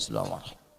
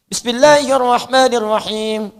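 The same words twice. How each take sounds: First: The phrase is recited very softly, barely voiced. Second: The phrase is recited aloud at full voice.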